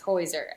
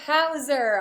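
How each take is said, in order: First: The first vowel sounds like 'oy'. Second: The first vowel sounds like 'ow'. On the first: This is the name's proper pronunciation. The speaker calls it right. "yes, it's Hoiser" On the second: This is how announcers mispronounce the name. The speaker calls it wrong. "oh, we went over this"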